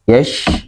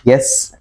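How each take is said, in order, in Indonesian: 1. Konsonannya bunyi sh yang tebal. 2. Konsonannya bunyi s yang tipis. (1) "memiliki sifat tebal ketika pengucapannya" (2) "tidak bisa ketika dibaca seperti huruf sin"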